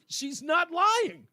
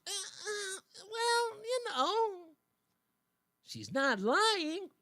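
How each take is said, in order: First: Higher, slow, drawn-out mock quote; replaying the dodge with ridicule. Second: Much higher, halting, sheepish excuse; hesitant mock evasive voice; mock hemming Democrat. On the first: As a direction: savor it slowly and mock it. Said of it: "I just wanna hear it again". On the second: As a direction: stammer out a lame dodge, slow at the end. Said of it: "They shrug their shoulders".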